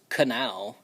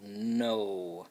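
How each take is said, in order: First: A k sound is said before the n. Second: The word starts with a plain n sound. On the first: The speaker calls it wrong. "we don't pronounce this as canal. Um, that just sounds a little bit silly" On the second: The speaker calls it right. "So that K N blend makes that n, n, n sound"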